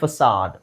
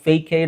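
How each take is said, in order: First: It has an s sound and ends in d. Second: It has a k sound and a long a. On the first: The speaker calls it right. "Actually ಅದು ಉಚ್ಚಾರಣೆ ಫಸಾಡ್" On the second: The speaker calls it wrong. "ಫ್ಯಾಕೈಡ್ ಅಥವಾ ಫೇಕೈಡ್ ಅಂತ ಅನ್ಸ್ಬೋದು"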